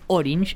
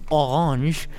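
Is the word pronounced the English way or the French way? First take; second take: English; French. First: It is pronounced with English sounds. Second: It is pronounced with French sounds. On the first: "Orange se dice en inglés" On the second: "orange en francés"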